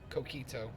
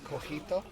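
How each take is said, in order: First: It is said the way the drink is named. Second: It is said with a European Spanish reading. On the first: This is how the drink is actually called. The speaker calls it right. "but obviously it's coquito" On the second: This is how the speaker would have read it. The speaker calls it wrong. "I would pronounce that cojito, because I, I speak um, Castilian Spanish"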